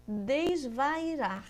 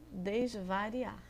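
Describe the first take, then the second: First: Desvairar stretched very slowly, syllable by syllable; drawn out slowly. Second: Desvariar stretched very slowly to show the moved letter; drawn out slowly. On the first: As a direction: spell it out with the voice. (desvairar bem devagar, sílaba por sílaba) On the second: (desvariar pronunciado bem devagar) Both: Shown as a demonstration. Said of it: "Mudei o I do lugar".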